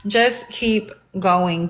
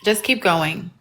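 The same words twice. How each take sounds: First: Just keep going, slowed, each word pressed; slow insistence. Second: Said in the usual way. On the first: Shown as a demonstration. Streamer urging viewers to keep calling, slow and firm. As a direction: spell it out firmly.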